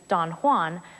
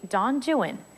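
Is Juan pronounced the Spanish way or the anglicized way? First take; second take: Spanish; anglicized. First: Juan is pronounced the Spanish way. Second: Juan is anglicized, rhyming with true one. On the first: "the familiar Spanish pronunciation" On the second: "Byron's poem is actually Don Juan"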